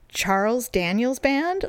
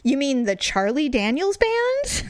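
First: Retold puzzled query. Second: Slow, pointed "Charlie" with the band name rising at the end; retold correcting question. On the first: He queries her wrong band name after dead silence, puzzled. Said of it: "there was all this dead silence". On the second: He corrects her band name to "Charlie", pointedly questioning. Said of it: "He goes".

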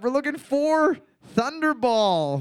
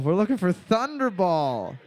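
First: Higher, stretched reveal with weight on "for"; game show reveal. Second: Said in the usual way. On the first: Shown as a demonstration. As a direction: announce it like a game host, leaning on "for". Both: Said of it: "Boards up".

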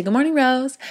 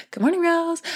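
First: Greeting herself. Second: "Good morning, rose." lilted much higher; sing-song morning greeting to herself. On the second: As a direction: chirp "Good morning, rose." up high like a cheery wake-up call. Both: Shown as a demonstration. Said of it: "I say".

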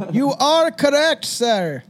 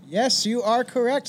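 First: Loud, slow, higher host announcement; game show host. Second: Said in the usual way. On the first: Shown as a demonstration. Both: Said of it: "repeats answer, game show style".

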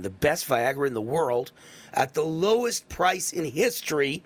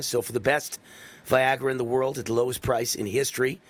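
First: "the best Viagra in the world" then "lowest price" slowed for weight; slow down and lean on "best" and "lowest"; emphatic repeat. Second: Said in the usual way. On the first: Shown as a demonstration. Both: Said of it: "let me say that again".

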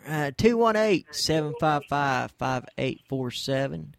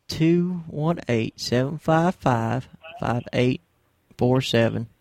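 First: Said in the usual way. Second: Slow repeat. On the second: Shown as a demonstration. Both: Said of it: "I better repeat the number here".

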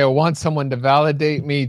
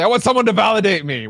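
First: Said in the usual way. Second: Raised, fast mock blurt; quick mocking quote of "validate me"; mock sudden plea. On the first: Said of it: "you say". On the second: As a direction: blurt it out of nowhere, higher and quicker. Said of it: "come out of nowhere and say".

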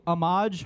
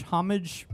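First: "homage" as oh-MAHZH, silent h; French-style homage. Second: "homage" as HOM-ij, h sounded; English-style homage. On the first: Host groping for the word, "homage" with silent h and end stress. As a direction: say "homage" with stress on the second syllable. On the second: Host trying the word another way, "homage" with sounded h and front stress. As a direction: say "homage" with stress on the first syllable. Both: Shown as a demonstration. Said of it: "uh, what do you call it?".

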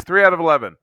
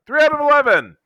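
First: Raised, lively pitch on the verdict; excited tally. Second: Very high-pitched, exuberant repeat; excited exclamation. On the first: Fan counting his favorite movies, pleasantly excited. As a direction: announce the count with rising enthusiasm. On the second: Fan celebrating his movie ranking, excited high exclamation. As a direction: crow the tally, pitch shooting right up. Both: Real, not acted.

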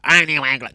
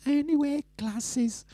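First: Loud, wrong take of an impression; Drea. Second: Very high, soft put-on voice; Drea. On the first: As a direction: blurt a rough imitation, louder than your own talk. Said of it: "she doesn't talk like that". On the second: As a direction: mimic a friend in a tiny high-pitched voice. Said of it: "Drea talks like this". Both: Shown as a demonstration.

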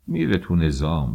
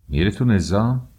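First: Said in the usual way. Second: میره تو نظام thrown back high and loud, rising on تو; mock the phrase میره تو نظام in disbelief; incredulous echo. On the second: A narrator's reading. Father echoes the uncle's میره تو نظام with loud scorn.

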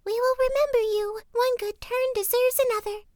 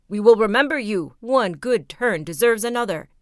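First: Very high, squeaky little bird voices; chicks crying thanks. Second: A loud, proud call of thanks; ant king calling out. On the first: Young ravens thank the youth in very high chick voices. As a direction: chirp the promise gratefully. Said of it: "and cried". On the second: Ant king calls after the departing youth, loudly. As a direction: shout the promise after him. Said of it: "the ant king cried out to him". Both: A narrator's reading.

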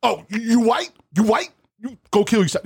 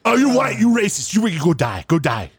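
First: Put-on high, taunting kid voice; mocking the kid again. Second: Put-on high, sneering kid voice; mocking the kid. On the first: Mimicking the teen gamer's insult, high and taunting. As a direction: whine it high like a bratty teen. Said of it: "that's all he kept on saying". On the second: Retelling the kid's insult in a high, snotty mock. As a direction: parrot the teen high and snotty. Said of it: "Oh, I loved it".

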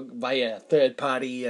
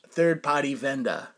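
First: Said in the usual way. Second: Third party said New England style as thahd pahty, dropping the r sounds; light New England accent on third party vendor. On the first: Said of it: "Pardon me for my New England accent". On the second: Retold or imitated. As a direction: imitate a New England repair guy saying third party. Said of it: "Pardon me for my New England accent, but that's how he sounded".

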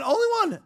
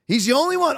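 First: Only one, jumping much higher in pitch; emphatic repeat. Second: Said in the usual way. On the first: Shown as a demonstration. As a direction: hammer home "only one" with a high leap.

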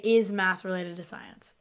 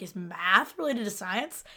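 First: "Is math related to science?" said slow with a falling end; slow, even question ending low on "science"; right inflection. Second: "Is math related to science?" said slow with a rise on "related"; slow question, "related" pushed up; wrong inflection. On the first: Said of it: "You just say". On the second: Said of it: "use the wrong inflection". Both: Shown as a demonstration.

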